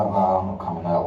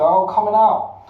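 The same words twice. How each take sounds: First: Low, soft and sorry. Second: Much higher and bright with glee; eager. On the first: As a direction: mumble it like a disappointed kid. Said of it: "you'd come back all sorry". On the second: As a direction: chirp it like a kid allowed out. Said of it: "Or you'd go". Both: Retold or imitated.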